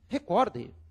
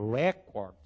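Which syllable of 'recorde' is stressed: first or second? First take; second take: second; first. First: The stress is on the second syllable. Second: The stress is on the first syllable. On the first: The speaker calls it right. "o que nós temos no idioma é recorde" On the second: The speaker calls it wrong. "pode ser que se fale record"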